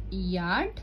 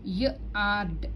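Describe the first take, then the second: First: Said in the usual way. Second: Yard split into its opening y sound and the rest. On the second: Shown as a demonstration. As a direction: sound out "yard" as y, then ard. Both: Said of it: "with a consonant sound Y".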